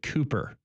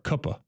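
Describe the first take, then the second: First: The first vowel is long, as in 'boot'. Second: The first vowel is short, as in 'cup'. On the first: "it's the word Cooper" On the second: "or Cuppa"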